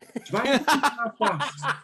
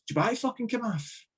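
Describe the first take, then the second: First: Higher and louder mock gaffer, laughing along; teasing Walter Smith, louder. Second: High mock gaffer voice, half laughing; teasing Walter Smith. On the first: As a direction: push the joke harder on the repeat. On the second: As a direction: tease the player like the boss did. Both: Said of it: "he's like".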